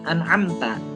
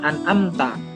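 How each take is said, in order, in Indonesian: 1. Huruf 'a' di tengah diawali dengan bunyi tenggorokan ain. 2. Huruf 'a' di tengah adalah vokal biasa tanpa bunyi tenggorokan. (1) "huruf ain dan dibacanya an'amta" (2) "Nggak yang an'amta. Kebanyakan dari kita ketika membaca ... seperti huruf alif biasa"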